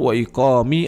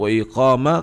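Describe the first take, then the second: First: The word iqam ends with an 'i' vowel. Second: The word iqam ends with an 'a' vowel. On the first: "tidak boleh dibaca majrur wa iqami" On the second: "atau mansub wa iqama"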